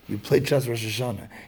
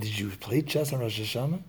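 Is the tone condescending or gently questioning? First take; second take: condescending; questioning. First: It is stated flatly in a condescending tone. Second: It is asked as a gentle, surprised question.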